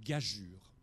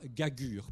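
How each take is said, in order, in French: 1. Le deuxième g est doux, comme le son j. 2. Le deuxième g est dur, comme dans go. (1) "prononce une gageure" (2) "ne prononce pas gagure"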